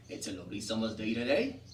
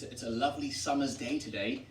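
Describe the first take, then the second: First: "summer's" said with a Z at the start; S's turned to Z's. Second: Said in the usual way. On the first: Shown as a demonstration. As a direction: Wiltshire dialect, "summer's" as "zummer's". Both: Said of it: "So S's become Z's".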